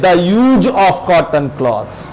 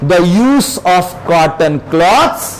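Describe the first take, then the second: First: The word 'use' ends with a z sound. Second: The word 'use' ends with an s sound. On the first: The noun is said like the verb. The speaker calls it wrong. "अक्सर लोग यूज ही कर देते हैं" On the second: The word is used as a noun. The speaker calls it right. "इसको पढ़ेंगे"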